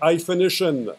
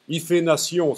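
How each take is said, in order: First: It is said with an English accent. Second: It is said with a French accent. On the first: "En anglais, ça commence par un H, ça s'appelle hyphenation" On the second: "si vous voulez prononcer à la franglaise"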